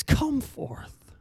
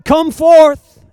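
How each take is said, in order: First: Hushed, softer come forth; whispered call. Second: Higher, louder ringing call; loud cry. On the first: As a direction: breathe the call to sleepers. Soft call to the sleeping. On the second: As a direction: call the dead out of the tomb. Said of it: "You've cried out". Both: Acted.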